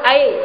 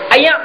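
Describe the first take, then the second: First: The word is said in standard Malay. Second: The word is said in a northern Kedah accent. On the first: "Kita sebut air" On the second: "Pasal mereka selalu sebut ayak"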